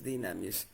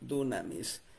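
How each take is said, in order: First: The first vowel sounds like 'i'. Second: The first vowel sounds like 'u'. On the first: This is how the word is actually pronounced. "pero la pronunciación es dinamis" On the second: This is how the word is spelled. "la manera que se escribe en griego es dunamis"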